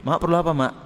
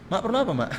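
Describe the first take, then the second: First: Said in the usual way. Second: Higher and softer, gently respectful; humble tender tone. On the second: Shown as a demonstration. (nada lembut penuh hormat kepada ibu) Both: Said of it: "Nadanya pun langsung berubah".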